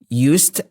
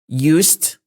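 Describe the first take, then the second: First: It is pronounced the way the modal verb is. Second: The same.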